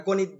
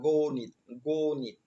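First: গণিত said quickly with a short first vowel; everyday pronunciation. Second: গণিত as "goo-nit", long closed o; correct pronunciation. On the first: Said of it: "আমরা গণিত বলি". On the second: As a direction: stretch the first syllable of গণিত, "gooo-nit". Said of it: "কিন্তু না". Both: Shown as a demonstration.

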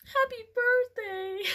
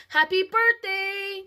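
First: Put-on higher, slow, teary little-girl voice; sniffly. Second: High, loud, slow sniffly birthday wish; a mild hint of a tearful toddler; through sniffles. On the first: Shown as a demonstration. Reader corrects the line into a teary sniffle. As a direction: redo it as a sniffling toddler. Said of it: "I guess that'd be more like". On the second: A narrator's reading. Cassie sniffles her wish to Aunt Denise, high and slow. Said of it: "Cassie said through sniffles".

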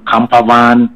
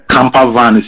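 First: "camper van" slow and drawn out, Black Country style; Black Country drawl. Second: Said in the usual way. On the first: Shown as a demonstration. Showing a friend how Black Country folk drag "camper van". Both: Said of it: "ɔtwem kakra".

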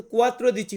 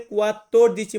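First: কুয়াত্র দিচি with a short single tr, the wrong way; wrong form shown. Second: কুয়াত্তর দিচি with a held doubled tt; right form shown. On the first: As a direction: say কুয়াত্র দিচি clipped, as the mistake. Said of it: "এটা কিন্তু কুয়াত্র দিচি হবে না". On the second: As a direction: correct কুয়াত্তর দিচি, lean on the tt. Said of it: "এটা হবে কুয়াত্তর দিচি". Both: Shown as a demonstration.

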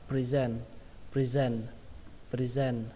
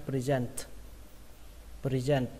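First: "present" ending on n, no closing t; final T dropped. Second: "Present" ending on an aspirated t; final T released. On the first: Teacher shows the second accepted reading, final T dropped. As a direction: leave the last t off "present". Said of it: "không cần âm T cũng được". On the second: Teacher models the word for learners, final T released. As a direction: say "Present" with a puff on the last t. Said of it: "kết thúc bằng âm T bắn hơi". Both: Shown as a demonstration.

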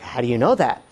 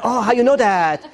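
First: Said in the usual way. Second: Put-on higher-pitched borrowed Asian accent. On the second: Husband answering the caricaturist in kind, Asian accent. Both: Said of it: "I sort of respond to an accent".

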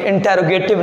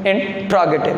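First: इंटेरोगेटिव with a full extra e, in-te-ro-ga-tiv; wrong pronunciation. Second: इंट्रोगेटिव with the e dropped, in-tro-ga-tiv; correct pronunciation. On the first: Teacher showing students the wrong form: इंटेरोगेटिव said in-te-ro-ga-tiv. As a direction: say इंटेरोगेटिव the common wrong way, every syllable sounded. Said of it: "ये इंटेरोगेटिव नहीं है". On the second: Teacher giving students the right form: इंट्रोगेटिव said in-tro-ga-tiv. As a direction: say इंट्रोगेटिव with a tight tr cluster. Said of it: "इसकी right pronunciation". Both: Shown as a demonstration.

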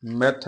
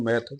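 First: ਮੈਥ said short and hard; wrong reading. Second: ਮੈਥ said softly, vowel left open; soft pronunciation. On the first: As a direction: say ਮੈਥ with a tight, hard vowel. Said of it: "ਮੈਥ ਨਹੀਂ ਕਹਿਣਾ". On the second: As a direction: say ਮੈਥ loose and unstressed. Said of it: "ਪੋਲਾ ਹੀ ਉਚਾਰਨ ਕਰਨਾ ਹੈ". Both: Shown as a demonstration.

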